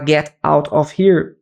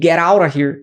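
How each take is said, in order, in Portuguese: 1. Cada palavra é dita separadamente, com pausas claras. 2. As palavras se juntam em uma única frase ligada. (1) "tudo separadinho, que é normalmente o inglês de livro" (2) "isso é conectado"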